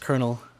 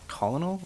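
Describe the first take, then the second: First: The word is pronounced unlike its spelling. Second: The word is pronounced the way it is spelled. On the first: This is the military rank. The speaker calls it right. "It is Colonel. Uh, I know it's not spelled like Colonel whatsoever" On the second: This is how some people say the name. The speaker calls it wrong. "that is not how you say the word"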